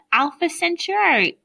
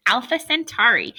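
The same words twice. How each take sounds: First: "Centauri" slipped as sen-CHOO-ar-ee; "Alpha Centauri" with a stray ch sound in "Centauri"; botched "Centauri" before the fix; mispronounced. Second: "Centauri" said cleanly as sen-TAR-ee; "Alpha Centauri" fixed, no ch sound; careful corrected "Centauri". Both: Real, not acted. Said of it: "Uh, sorry, sorry".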